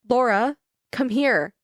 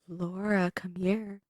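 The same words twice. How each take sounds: First: It is read in a plain voice. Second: It is said in a creepy voice.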